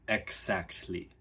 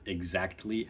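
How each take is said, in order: First: The middle consonants are voiceless. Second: The middle consonants are voiced. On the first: "turns to" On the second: "has two of those sounds in it"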